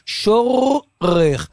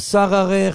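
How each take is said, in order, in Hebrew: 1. נאמרת קצר, עם r אחת. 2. נאמרת עם תנועה ראשונה a. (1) "שאומרים, שורך" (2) "לא שררך"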